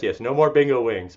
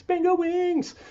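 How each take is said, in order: First: Said in the usual way. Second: "Bingo wings" echoed much higher in a playful squeal. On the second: Acted. Coach echoing a viewer's comment, "Bingo wings" in a high teasing voice. Repeats phrase mockingly higher.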